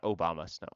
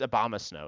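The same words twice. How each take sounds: First: The start sounds like 'Obama'. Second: The start does not sound like 'Obama'. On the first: This is the common nickname. The speaker calls it wrong. "everyone calls it Obama" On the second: This is the actual name. The speaker calls it right. "It's it's Obama Snow"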